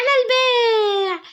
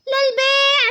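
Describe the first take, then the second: First: Very slow, crying hawker's wail; slow plaintive seller call. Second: Street seller call. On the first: Girl selling clay outside at night, slow crying wail. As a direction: stretch the call out mournfully. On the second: Girl selling clay outside at night, chanting her call. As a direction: call out wares like a street vendor. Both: Acted. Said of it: "عماله تقول صلصال للبيع".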